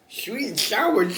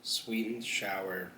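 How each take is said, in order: First: Much higher, slower and louder take; high put-on voice. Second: Said in the usual way. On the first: Ordering chicken, saying it in a silly high voice.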